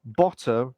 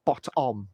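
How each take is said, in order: First: "Bottom" with the ending run together; simplified Cockney. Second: "bottom" with a full, separate second syllable "om"; fully pronounced word. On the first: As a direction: say "Bottom" as one reduced word. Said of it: "Cockney accent simplified". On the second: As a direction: say "bottom" as bot-om. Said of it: "not bottom". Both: Shown as a demonstration.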